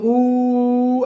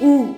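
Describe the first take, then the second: First: The vowel is drawn out for a very long time. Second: The vowel is held very briefly. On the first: It is a prolonged vowel of three or more measures. "प्लुत हो गया" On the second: It is a short vowel of one measure. "ह्रस्व स्वर हो गया"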